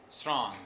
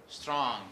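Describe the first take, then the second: Both takes have the same delivery.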